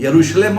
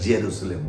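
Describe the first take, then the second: First: The word begins with a Y sound. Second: The word begins with a J sound. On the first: This is how it is said in Hindi. "यरूशलेम हम बोलेंगे" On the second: This is how it is said in English. "आप English में बोलेंगे तो जेरूशलेम बोलेंगे"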